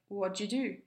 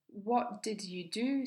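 First: The words are reduced and run together. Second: Each word is pronounced fully and separately.

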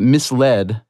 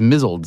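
First: It is said as 'mis-led', with a clear 'led'. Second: It is said as 'mizzled', rhyming with 'drizzled'. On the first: The speaker calls it right. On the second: The speaker calls it wrong.

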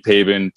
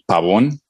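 First: The name is said with an English accent. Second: The name is said with a Spanish accent. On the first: "people call me Pabon" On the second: "if you want it with the Spanish accent"

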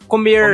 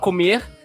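First: It is said with a Caipira accent. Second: It is said with a Carioca accent.

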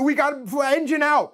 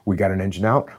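First: The voice sounds tense and panicked. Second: The voice sounds calm and steady. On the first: The pilot is losing control of the situation. The speaker calls it wrong. "That guy's not calling" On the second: The pilot has the situation under control. The speaker calls it right. "That's what they're doing"

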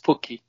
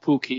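First: The first consonant is soft and gently released. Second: The first consonant is hard and strongly released. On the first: The speaker calls it right. "it's Pukki" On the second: The speaker calls it wrong. "It's not Pukki"

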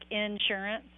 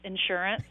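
First: The word is split into two separate parts. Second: The word is said as one smooth unit. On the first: The speaker calls it wrong. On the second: The speaker calls it right.

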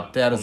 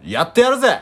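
First: It is said quietly, without much force. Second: It is said loudly, with strong energy.

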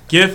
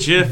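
First: The word begins with a hard G sound. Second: The word begins with a soft J sound. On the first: The speaker calls it right. "So it's a G, not a J" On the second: The speaker calls it wrong. "if you say GIF, you're a fucking idiot"

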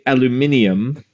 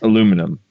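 First: It has an extra syllable before the ending. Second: It has no extra syllable before the ending. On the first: "but you would also say aluminium" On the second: "Where in our spelling, there's no I after that last N. It's just aluminum"

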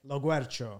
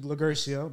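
First: The middle sounds like guer, as in the original. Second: The middle sounds like a plain ger sound. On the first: This is how the family says the name. "You say it?" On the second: This is the slip teachers might be expected to make. "I expected Lagercio"

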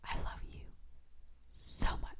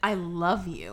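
First: It is said in a whisper. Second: It is said in a normal voice.

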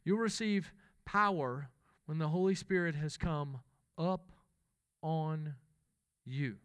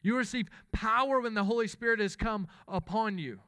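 First: It is said in a Mississippi Southern accent. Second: It is said in a plain, neutral accent.

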